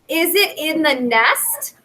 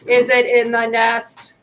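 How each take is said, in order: First: The pitch slides up higher at the end. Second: The pitch stays flat without rising at the end. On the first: The speaker calls it right. "You ask it with a little bit of a slide up in your pitch" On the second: The speaker calls it wrong. "you don't say"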